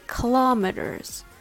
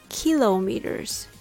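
First: The stress is on the second syllable, lo. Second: The stress is on the first syllable, kil.

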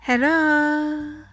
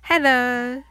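First: The voice rises at the end, like searching. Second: The voice falls at the end, like a greeting.

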